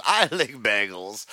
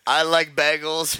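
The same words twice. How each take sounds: First: "lick" said with a short i, as in "pick"; imitated mishearing. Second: "like" said with a long "eye" vowel, higher pitch; imitated mishearing. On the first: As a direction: quote it with "lick" in place of "like". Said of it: "and then Dogger says". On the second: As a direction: quote "like" clearly, vowel as in "bike". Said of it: "it sounds like Burb says".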